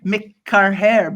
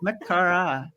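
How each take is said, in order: First: The name ends with a 'hair' sound. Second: The name ends with a 'ra' sound. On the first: The speaker calls it wrong. "I didn't pronounce it first" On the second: The speaker calls it right. "It's pronounced Makara"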